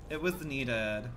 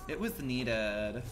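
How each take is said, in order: First: Said in the usual way. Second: Lower, very slow and drawn out; slow drawl. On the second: Real, not acted. Streamer savors the team's save, slowly. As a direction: stretch every word, savoring it.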